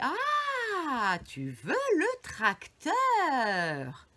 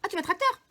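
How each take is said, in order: First: It is said slowly with long, drawn-out vowels. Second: It is said at normal speed, vowels short.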